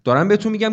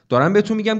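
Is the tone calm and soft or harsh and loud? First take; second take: harsh; harsh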